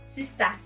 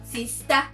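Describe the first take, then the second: First: It is said in a Cameroonian accent. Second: The same.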